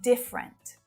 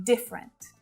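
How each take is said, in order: First: The word is said with two syllables. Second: The word is said with two syllables.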